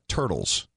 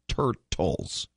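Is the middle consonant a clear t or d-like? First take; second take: d-like; clear t. First: The middle consonant sounds like a soft d. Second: The middle consonant is a clear t sound. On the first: The speaker calls it wrong. "They're not turtles. It's not spelled with a double D or with a D" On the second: The speaker calls it right. "It's turtles"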